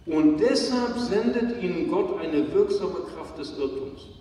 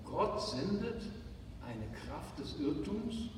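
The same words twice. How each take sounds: First: A bold public reading of the text; loud Bible reading. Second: Quiet, doubting, as if the words can't be right; a hushed "did I read that right?"; incredulous reread. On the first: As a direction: read out firmly and loud, as scripture. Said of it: "Mario, kannst du es nochmal lesen?". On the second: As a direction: softly question the verse in disbelief. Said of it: "Wie bitte?". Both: Shown as a demonstration.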